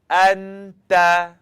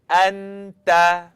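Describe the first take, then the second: No difference in how they are said.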